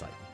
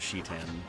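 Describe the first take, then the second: First: The name begins with a 't' sound. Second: The name begins with a 'sh' sound. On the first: This is a habit kept from childhood. The speaker calls it wrong. "pronounce his name exactly as I did when I was a child" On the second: This is how the name is meant to be said. The speaker calls it right. "The correct pronunciation is what Miss Lim- Lumi is using, which is Shitan"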